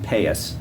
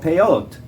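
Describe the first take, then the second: First: It is said in Ashkenazi pronunciation. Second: It is said in Modern Hebrew pronunciation. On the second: "called peyot"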